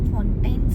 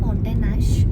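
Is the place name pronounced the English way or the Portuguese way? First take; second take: English; Portuguese. First: It sounds like the English word fountains. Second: It ends in a Portuguese-style nyash sound. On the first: The speaker calls it wrong. "ಫೌಂಟೈನ್ಸ್ ಅಂತ ನಾವು ಪ್ರನೌನ್ಸ್ ಮಾಡ್ತೀವಿ" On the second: The speaker calls it right. "But it's a ಫೌಂಟೇನ್ ನ್ಯಾಶ್ because ಇದನ್ನು Portuguese introduce ಮಾಡಿಸಿದ್ದಾರೆ"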